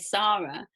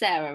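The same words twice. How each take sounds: First: The name is said in the British way. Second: The name is said in a non-British way. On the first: "England, we would say Sarah" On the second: "it's Sarah, right?"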